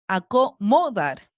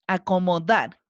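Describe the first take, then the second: First: The stress is on the second-to-last syllable. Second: The stress is on the last syllable. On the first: The speaker calls it wrong. "Vamos a cargarla en la penúltima ... No suena para nada bien" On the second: The speaker calls it right. "Ahí cargué la voz en la última y suena bien"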